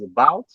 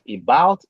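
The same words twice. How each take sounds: First: The first vowel is a reduced schwa sound. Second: The first vowel is a full, unreduced vowel. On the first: The speaker calls it right. "rather, it is about" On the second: The speaker calls it wrong. "this is not about"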